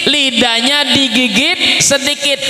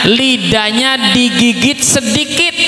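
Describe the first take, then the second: No difference in how they are said.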